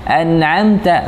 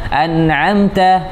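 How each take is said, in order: No difference in how they are said.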